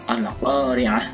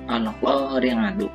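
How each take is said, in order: First: The word ends with a bare h sound. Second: The word ends with a tu syllable. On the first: The reader stops at this word. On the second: The reading continues without stopping.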